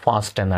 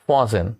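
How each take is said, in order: First: The t sound is pronounced. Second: The t sound is silent. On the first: The speaker calls it wrong. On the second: The speaker calls it right.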